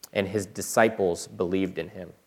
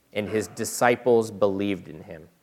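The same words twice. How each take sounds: Both takes have the same delivery.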